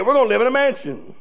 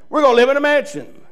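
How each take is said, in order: First: Said in the usual way. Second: "We're gonna live in a mansion" said again with rising joy; joyful repeat. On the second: Shown as a demonstration. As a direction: lift "gonna" with delight on the repeat.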